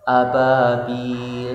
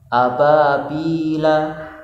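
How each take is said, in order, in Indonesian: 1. Kata ini berakhir dengan konsonan mati. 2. Kata ini berakhir dengan vokal pendek. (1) "diwakafkan harus dibaca sukun" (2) "Bertanda fathah"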